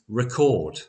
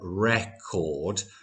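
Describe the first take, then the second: First: The first vowel is short. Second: The first vowel is long. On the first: It is a verb, to capture sound. "we have a shorter vowel sound on the E sound" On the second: It is a noun, a disc that plays music. "in the first word, we have a longer vowel sound"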